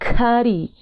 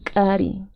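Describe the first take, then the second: First: The first k has a puff of breath. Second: The first k is a sharp ejective pop.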